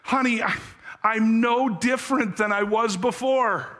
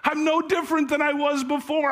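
First: A broken man confessing through tears to his wife; mild tearful plea. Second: Much higher and faster, the confession breaking upward; husband crying out his failure, higher and quicker; rising tearful despair. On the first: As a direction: voice lifted high with tearful pleading. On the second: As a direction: repeat it with mounting anguish, pitch climbing. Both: Acted. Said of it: "he answered through his tears".

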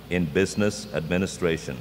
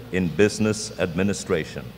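Both takes have the same delivery.

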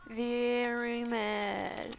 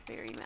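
First: VERY stretched out very slowly; drawn-out mock threat. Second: "very mad" said softly, without stretching; quiet repeat. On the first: Player warns she will be upset without her bunny, "very" drawn out. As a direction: hold the word "very" long before "mad". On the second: Pretend. Player repeats her mock threat to viewers, quietly. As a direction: drop to a soft, short echo of "very mad".

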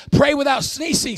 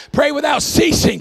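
First: "sneezing" said by mistake for ceasing; slip of the tongue. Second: Said in the usual way. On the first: Real, not acted. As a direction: stumble into "sneezing", with an extra n sound. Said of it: "I almost said". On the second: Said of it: "But anyway".

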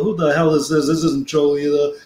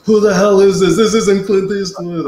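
First: Said in the usual way. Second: Higher, louder indignant retort; angry Arnold. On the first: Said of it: "And he go". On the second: Retold or imitated. Arnold realizing prank call, higher and louder indignant outburst. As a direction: bark it like a star who's been fooled. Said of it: "And he goes".

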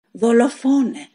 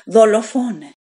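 First: High, loud cry of murderer; screaming accusation. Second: Shrieking the word even louder and higher; louder screaming accusation. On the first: Wounded wife screams at Pedro, accusing him furiously. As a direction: hurl the word at him. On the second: Widow screams at Pedro, accusing louder still. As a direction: scream it again with full force. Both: A narrator's reading. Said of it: "φώναξε τέλος η γυναίκα".

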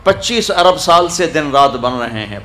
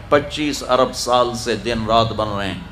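First: Said in the usual way. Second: Softer echo. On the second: Shown as a demonstration. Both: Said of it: "repeats the line softer".

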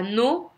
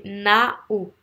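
First: "no" with a single O vowel, rising; wrong "no". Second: "nao" split into open A, then O; correct "now". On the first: Teacher showing students the mistake, wrong "no". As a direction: say "now" wrongly as "no", lifted at the end. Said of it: "C'est pas no". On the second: Teacher correcting the vowel for students, two-part "nao". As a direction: say "nao" with both vowels clearly heard. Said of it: "C'est nao". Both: Shown as a demonstration.

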